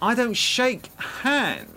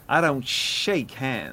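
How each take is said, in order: First: It is said in an exaggerated camp voice. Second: It is said in a plain impression voice.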